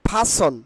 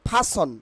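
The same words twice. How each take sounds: No difference in how they are said.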